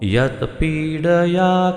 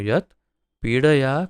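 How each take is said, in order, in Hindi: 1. 'yat' सीधे अगले शब्द में मिल जाता है। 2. 'yat' अगले शब्द से अलग रहता है। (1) "पहले में यत् को जोड़ सकते हैं पहले उच्चारण में" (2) "ऐसा उच्चारण योग्य रहेगा"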